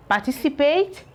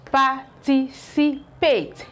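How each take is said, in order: First: Said in the usual way. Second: Participate split into slow paired syllables, par-tic-i-pate; teacher splitting participate slowly; slow syllable pairing. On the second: Shown as a demonstration. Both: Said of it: "You can see how it is paired".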